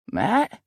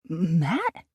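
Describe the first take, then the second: First: Raised voice from far off; calling from upstairs. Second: Can't believe it's him; incredulous. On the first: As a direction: call out up the stairs. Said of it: "Tony's voice calling from upstairs". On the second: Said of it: "I asked incredulously". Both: A narrator's reading.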